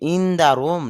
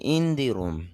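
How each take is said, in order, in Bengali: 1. 'the' শব্দটি ছোট 'thuh' দিয়ে উচ্চারিত হয়। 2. 'the' শব্দটি লম্বা 'thee' দিয়ে উচ্চারিত হয়। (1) "টিএইচ এর উচ্চারণ এখানে দা হবে" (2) "দি হয়"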